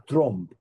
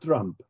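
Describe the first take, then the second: First: The vowel is an 'o' sound. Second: The vowel is an open 'a' sound.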